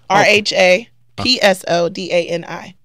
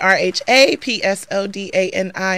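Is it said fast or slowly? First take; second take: slowly; fast. First: It is spelled out more slowly. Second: It is spelled out very fast.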